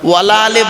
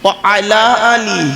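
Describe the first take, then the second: First: Wa runs straight into ala as one word. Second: Wa and ala are said as separate words. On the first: The speaker calls it wrong. "ওয়ালা আলে বলবেন না। ওয়ালা আলে বলে কোনো শব্দ নেই।" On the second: The speaker calls it right. "এটা কি? ও আলা আলি"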